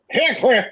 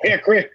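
First: The middle O sound is pronounced. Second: The middle O sound is dropped.

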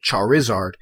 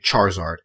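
First: The middle vowel is clearly pronounced. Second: The middle vowel is dropped entirely. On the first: The speaker calls it right. "You do pronounce the I" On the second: The speaker calls it wrong. "You don't say Charizard"

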